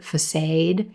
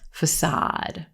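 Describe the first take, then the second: First: The first vowel sounds like 'ay' in grade. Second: The first vowel sounds like 'ah' in sock. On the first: The speaker calls it wrong. "use a grade A A vowel and say facade" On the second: The speaker calls it right. "this is going to be olive sock facade"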